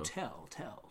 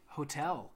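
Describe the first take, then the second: First: The word is said with an echoing, reverberant voice. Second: The word is said in a plain, dry voice. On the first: The speaker calls it right. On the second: The speaker calls it wrong.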